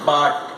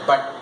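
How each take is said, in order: First: The word is said in its full form. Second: The word is said in a reduced form. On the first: "strong form" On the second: "is the weak form"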